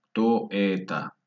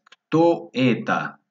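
First: Said in the usual way. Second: Slow, higher-pitched question with a falling end; slow teaching delivery of a question; drawn-out model question. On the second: Shown as a demonstration. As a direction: stretch "Kto" high and louder, then fall.

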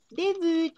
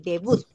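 First: "debut" high, French u and no final t; French-accented "debut"; French pronunciation. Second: Said in the usual way. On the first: Shown as a demonstration. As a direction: say "debut" as "day-bü", lifted in pitch. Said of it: "si las leyésemos en francés". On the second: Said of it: "para nosotros dijésemos debut".

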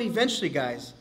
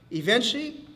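First: Said in the usual way. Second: "eventually" lifted high with a rising end; "eventually" said higher, tune climbing at the end; drawn-out eventually. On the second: Shown as a demonstration. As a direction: hang on "eventually" as a rising question to the crowd.

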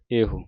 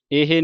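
First: ਇਹੋ with a rounded final vowel; correct rounded ending. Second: ਇਹ ending in "hay"; wrong ending demo. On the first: Teacher showing the right reading, ਇਹੋ with rounded ending. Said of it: "ਹਾਹੇ ਔਂਕੜ". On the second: Teacher showing what not to read, ਇਹ as "ay-hay". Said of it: "ਇਹ ਨਹੀਂ ਪੜ੍ਹਨਾ". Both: Shown as a demonstration.

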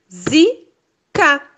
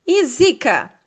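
First: Zika broken into zi-ka, spaced apart; split into syllables. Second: Said in the usual way. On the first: Shown as a demonstration. Teacher to first graders: Zika, zi-ka. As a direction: sound out Zika slowly, syllable by syllable. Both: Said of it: "Vamos separar elas em sílabas".

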